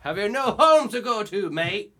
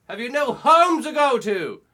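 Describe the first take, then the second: First: Loud, high Irish-Australian bark; Irish-Australian accent. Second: Exasperated shout. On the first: Shown as a demonstration. Showing the friend the Irish-Australian character voice. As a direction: do an Irishman talking Aussie. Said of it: "Irish. Australian". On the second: Retold or imitated. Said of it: "I just went".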